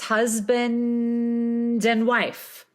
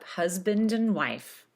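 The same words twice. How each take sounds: First: It is said slowly with a drawn-out N. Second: It is said quickly at normal speed. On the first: "Sustaining that N when we do it slowly really helps" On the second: "And then you just speed it up"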